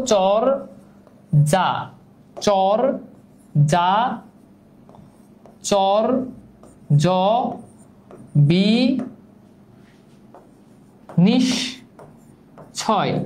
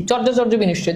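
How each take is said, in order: First: "চর, যা, চর, যা, চর, জ, বি, নিশ, ছয়" with a pause after each syllable. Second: Said in the usual way. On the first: Shown as a demonstration. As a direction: spell out "চর, যা, চর, জ, বি, নিশ, ছয়" slowly, one held beat at a time. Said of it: "যতগুলো vowel পাবা ততগুলো অক্ষর". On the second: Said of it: "আমরা এই শব্দটাকে বাংলিশে যদি লিখি".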